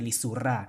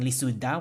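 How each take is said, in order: First: The consonant before the last vowel is r. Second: The consonant before the last vowel is d. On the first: The speaker calls it right. "we say lisura" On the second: The speaker calls it wrong. "instead of saying lisuda"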